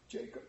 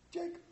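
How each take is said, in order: First: Barely breathed Jacob, very soft; frightened murmur of Jacob; hushed plea. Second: Jacob rising high and soft, pleading; high, soft begging Jacob; pleading cry. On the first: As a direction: whisper his name in fear. Scrooge calls the ghost. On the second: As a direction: reach up for him with the name. Scrooge calls the ghost again. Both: Acted.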